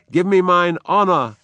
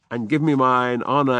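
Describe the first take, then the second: First: Higher, louder order; commanding shout. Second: Said in the usual way. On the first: Acted. Macbeth demanding his armor, commanding shout. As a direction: demand it like a king. Macbeth's line, then repeated plainly.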